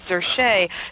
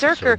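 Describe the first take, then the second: First: The name is said in a French-sounding way. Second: The name rhymes with berserker. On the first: The speaker calls it wrong. "my silly bad French accent" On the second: The speaker calls it right. "It rhymes with berserker"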